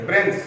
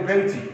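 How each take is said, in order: First: Said in the usual way. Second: ব্রেঞ্চি ending on an extra "i"; added final vowel. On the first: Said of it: "ব্রেঞ্চকে আমরা বলি ব্রেঞ্চি". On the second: Shown as a demonstration. Teacher showing students the colloquial form, ব্রেঞ্চি with a final i. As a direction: tack an i onto the end, ব্রেঞ্চি. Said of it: "আমরা বলি".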